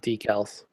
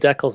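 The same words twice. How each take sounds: First: The word is said with an American pronunciation. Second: The word is said with a Canadian pronunciation. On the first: The speaker calls it wrong. "not decals" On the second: The speaker calls it right. "we call them decals in Canada"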